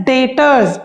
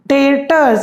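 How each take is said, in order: No difference in how they are said.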